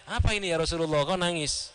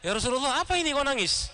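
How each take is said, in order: First: Courteous question at an easy pitch; mild, mannerly acted query; polite asking. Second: High-pitched acted challenge; imitated surprised query; immediate questioning. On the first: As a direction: ask respectfully, as a student would. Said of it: "dengan sopan ya, dengan adabnya". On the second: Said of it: "lalu langsung".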